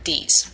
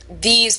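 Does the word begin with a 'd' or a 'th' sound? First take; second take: d; th. First: It begins with a 'd', New York style. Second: It begins with a voiced 'th' sound.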